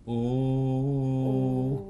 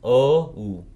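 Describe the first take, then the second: First: The word is a plain 'oo' vowel. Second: The word is an 'oh' gliding to 'oo'. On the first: "как у просто" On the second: "или о у"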